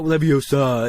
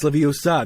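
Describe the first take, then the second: First: "Leviosa" with an R sound after the last vowel; the wrong "Leviosa", ending in R. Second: "Leviosa" ending cleanly on the vowel; the correct "Leviosa", with no R. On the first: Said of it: "she was like". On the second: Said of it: "it's not Leviosa". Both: Retold or imitated.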